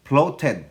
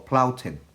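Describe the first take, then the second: First: "flouted" read as /ploted/ with a p sound; "flouted" read stiffly as "ploted"; word read out. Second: "flouted" said as /plauted/ with an ow sound; "flouted" restated as "plauted"; word corrected. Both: Shown as a demonstration. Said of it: "O flouted, no?".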